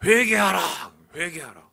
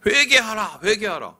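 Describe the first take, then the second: First: Stern repeated command. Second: Crying out repent, higher and louder; mock prophet calling out; prophet's cry. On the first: Retold or imitated. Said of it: "재미있는 거는". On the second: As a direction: shout it through the streets like a prophet. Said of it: "외치고 다니던 말이".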